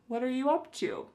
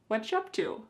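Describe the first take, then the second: First: The words are mostly kept, lightly contracted. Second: The words are squeezed into a few quick syllables. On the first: "oftentimes be verbs like are, is will be contracted" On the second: "We can reduce this a little bit further"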